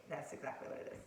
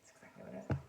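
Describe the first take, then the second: First: Said in the usual way. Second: "That's exactly what it is" dropped far lower; mock deep voice; deep repeat. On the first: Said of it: "repeated lower". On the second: Shown as a demonstration. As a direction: growl it low the second time.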